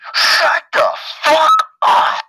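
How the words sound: It is said intensely, imitating the woman's delivery.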